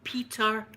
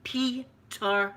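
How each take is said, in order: First: Imitating son giving his name in American; mock American accent on the name. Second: PETER drawn out in two separate syllables; slow repeat. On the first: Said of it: "try an American accent". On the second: Retold or imitated. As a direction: repeat PETER slowly, as if misheard.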